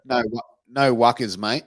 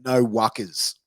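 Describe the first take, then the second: First: "no wuckers, mate" in a light Australian accent; easygoing mate says "no wuckers"; Australian sentence. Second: "no wuckers" in a slight Australian accent; Australian term. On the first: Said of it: "I'll put it in a sentence for you". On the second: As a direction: announce "no wuckers" as the quiz word, lightly Australian. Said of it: "another one is". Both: Shown as a demonstration.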